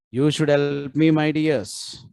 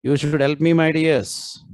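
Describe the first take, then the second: No difference in how they are said.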